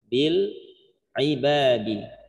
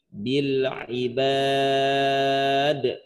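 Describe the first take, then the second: First: The phrase ends with a final i vowel. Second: The phrase ends on a d sound. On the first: The reading continues without stopping. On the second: The reading stops at this word.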